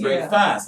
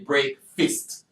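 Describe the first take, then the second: First: The second syllable sounds like the word fast. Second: The second syllable sounds like the word fist. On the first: It follows the spelling, as in British speech. "That's break fast" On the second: It is the American way the crew wanted. "say break fist"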